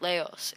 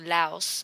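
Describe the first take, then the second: First: The word does not rhyme with blouse. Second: The word rhymes with blouse. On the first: The speaker calls it wrong. "that's how I was pronouncing it" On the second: The speaker calls it right. "It's actually louse"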